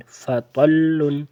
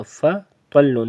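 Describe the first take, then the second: First: فطل very slow, fa apart from a heavy ta; separated letters. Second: فطل run together like fat; the wrong way, fa and ta joined. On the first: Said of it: "فا اور تا کو گٹھے ملانا نہیں". (صحیح: فطل، فا اور طا الگ) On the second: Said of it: "یہ فطل نہیں کرنا". (غلط: فطل، فا اور طا ملا کر) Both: Shown as a demonstration.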